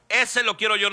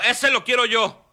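First: Eager repeat. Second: Grab the puppy you want, eagerly; eager claim. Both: Retold or imitated. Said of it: "Y luego".

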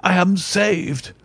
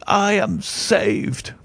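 First: Higher, slow cry of relief; joyful relief. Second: Even higher and very slow, drawn-out cry of relief; joyful relief. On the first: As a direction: let the relief burst out. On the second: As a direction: stretch the relief out, savouring it. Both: Acted. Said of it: "With a shriek of joy".

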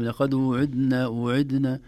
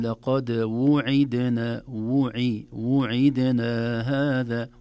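First: وعدنا clipped to idna, vowels swallowed; hurried sloppy وعدنا; rushed wrong version. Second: وعدنا drawn out, waw and kasra clear; careful slow وعدنا هذا; slow correct version. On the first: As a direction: say وعدنا quickly, dropping the waw and kasra. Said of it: "قد تخرج كلمة". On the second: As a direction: stretch وعدنا slowly with full vowels. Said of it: "ولكن". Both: Shown as a demonstration.

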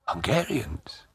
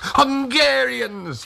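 First: Much softer, higher question; hushed surprise. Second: High, long-drawn cry of welcome; joyful greeting. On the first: Old Tag hears the soldiers are Hungarians, hushed surprised question. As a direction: echo it softly in disbelief. Taken aback by soldier's answer. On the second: Old Tag opens shutters to the soldiers, joyful high cry. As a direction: hail them with delight, stretching the word. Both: A narrator's reading.

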